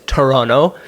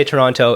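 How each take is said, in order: First: "Toronto" as "Torono", T dropped; the locals' "Toronto", swallow the second T; local pronunciation. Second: "Toronto" with the second T sounded; tourist pronunciation. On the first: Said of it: "it's Toronto". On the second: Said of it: "Never say Toronto". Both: Shown as a demonstration.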